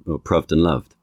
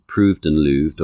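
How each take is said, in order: First: "proved and loved" both said with the short uh vowel, "pruhved" and "luhved"; both with short u rhyme. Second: "proved and looved" with the same long oo vowel in both words; both with oo rhyme. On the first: Linguist demonstrating the likelier original rhyme, both vowels short uh. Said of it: "the latter rather than the former". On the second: Linguist demonstrating an old rhyme, both vowels long oo. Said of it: "linguists like my father would look at these ... and go". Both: Shown as a demonstration.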